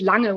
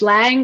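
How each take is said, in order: First: The name is said with a German pronunciation. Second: The name is said with an English pronunciation. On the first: "it's indeed Lange when you speak German" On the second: "It's Lang when you speak English"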